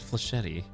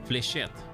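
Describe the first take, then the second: First: The word has three syllables, ending in 'tee'. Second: The word has two syllables, ending in 'shet'. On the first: The speaker calls it wrong. "Why did I always say it Flashety?" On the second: The speaker calls it right. "Got it. It's Fléchette"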